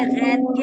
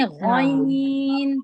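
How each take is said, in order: First: Said in the usual way. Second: غین heavy and full the Arabic way; Arabic ghain. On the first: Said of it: "ہم غین پڑھتے ہیں نا اردو میں". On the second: Shown as a demonstration. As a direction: make غین thick like in Arabic. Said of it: "عربی میں اس کو پڑھتے ہیں غین".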